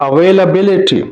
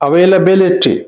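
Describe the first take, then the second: No difference in how they are said.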